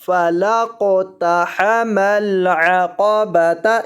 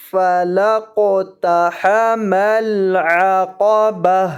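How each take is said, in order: First: Slow tajweed chant with final "تا" pronounced; joined reading. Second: Very slow chant ending "با" on a breathed h; waqf, stopping reading. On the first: Teacher showing continuation into the next word, "تا" fully voiced. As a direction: recite slowly, sounding the "تا" after "با". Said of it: "ہم نے اس کو اس طرح سے پڑھنا". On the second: Teacher showing how to stop, slow recitation with "با" ending in h. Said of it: "پھر ہم اس کو پڑھیں گے وقفاً". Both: Shown as a demonstration.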